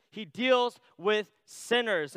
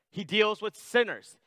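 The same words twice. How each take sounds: First: "He deals with sinners" said again slowly, leaning on "deals"; slow down and press "deals" to drive it home; slow emphatic repeat. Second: Said in the usual way. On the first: Shown as a demonstration. Preacher repeating the point to the congregation, slow and weighty.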